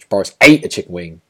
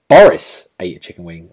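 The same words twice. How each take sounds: First: The stress falls on the word ate. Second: The stress falls on the word Boris. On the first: It is in question what he actually did with the chicken wing. "you know you're kind of overemphasizing that ate" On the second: It is in question whether it was Boris or someone else. "like you start to question like whether it's Boris or someone else"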